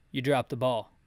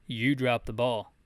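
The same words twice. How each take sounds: The two takes are said the same way.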